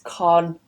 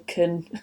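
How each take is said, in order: First: The vowel is a full o sound. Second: The vowel is a weak schwa. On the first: "the con actually changes to an o sound up north" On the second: "that schwa at the beginning"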